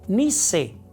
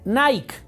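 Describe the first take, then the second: First: The word is pronounced as in Spanish. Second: The word is pronounced as in English. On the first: The speaker calls it right. "no es Nike, es Nice" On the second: The speaker calls it wrong. "lo pronuncian pensando que está en inglés y dicen Nike"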